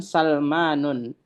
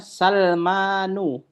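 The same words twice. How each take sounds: First: Salmanun with an added final n sound; Salmanun, with nunation at the end; wrong tanwin reading. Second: Salmanu ending on a bare u, no n; Salmanu, closing on a short u; correct reading. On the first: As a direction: read it Salmanun, ending in -nun. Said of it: "bukan Salmanun". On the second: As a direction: read it Salmanu, without tanwin. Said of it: "Jadi dibacanya Salmanu". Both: Shown as a demonstration.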